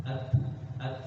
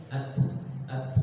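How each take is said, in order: No difference in how they are said.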